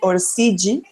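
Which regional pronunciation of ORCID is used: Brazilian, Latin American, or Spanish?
Brazilian. It is said with a Brazilian Portuguese pronunciation. "Yo he vivido bastante tiempo en Brasil y la gente lo dice allí ORCID"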